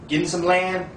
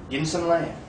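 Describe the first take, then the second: No difference in how they are said.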